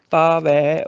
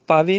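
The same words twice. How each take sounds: First: ਪਾਵੈ said "paavai", open held ending; correct ai ending. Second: ਪਾਵੇ said "paavay", closed final e; mistaken e ending. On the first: Teacher corrects it, ਪਾਵੈ as long "paavai". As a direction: stretch the open last vowel of ਪਾਵੈ. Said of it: "ਵਾਵੇ ਨੂੰ ਦੁਲਾਵਾਂ". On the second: Teacher shows the mistake, ਪਾਵੇ as "paave". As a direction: keep the end of ਪਾਵੇ narrow. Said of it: "ਪਾਵੇ ਨਹੀਂ". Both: Shown as a demonstration.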